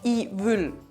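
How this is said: It is said in Austrian dialect pronunciation.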